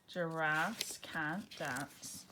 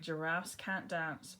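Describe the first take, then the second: First: Each word drawn out slowly; slow title reading. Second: Said in the usual way. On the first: Shown as a demonstration. Title announced before reading.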